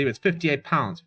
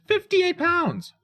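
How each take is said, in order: First: Said in the usual way. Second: Much higher, slow, disbelieving; outraged disbelief. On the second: Real, not acted. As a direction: stretch it out, shocked at the price. Repeats price in disbelief.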